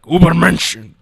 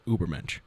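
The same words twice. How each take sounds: First: It is shouted harshly with a German accent. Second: It is said calmly with an English accent. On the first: This is how it really sounds in German. "In reality, be like" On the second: This is how people usually say it. "everyone continues to call it the Übermensch"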